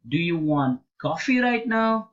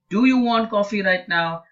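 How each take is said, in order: First: The stress falls on the word coffee. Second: The stress falls on the word do. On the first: Asks whether coffee rather than another drink is wanted. "The stress is on coffee" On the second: Asks whether the person wants it at all. "if the stress is on do"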